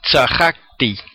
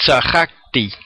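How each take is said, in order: First: The stress is on the second syllable. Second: The stress is on the second syllable.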